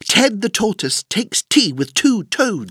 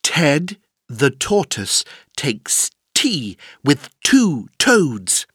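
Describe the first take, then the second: First: The sentence is said at a faster pace. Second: The sentence is said slowly with pauses.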